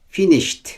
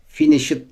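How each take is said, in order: First: The ending is said as a plain t sound. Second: The ending is said as an extra syllable. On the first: The speaker calls it right. "T okuyoruz" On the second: The speaker calls it wrong. "finished değil"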